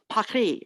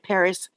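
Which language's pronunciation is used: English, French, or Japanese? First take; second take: French; English. First: It is pronounced the French way. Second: It is pronounced the English way. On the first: "in French it's Paris" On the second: "in English we say Paris"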